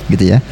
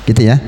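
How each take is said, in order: No difference in how they are said.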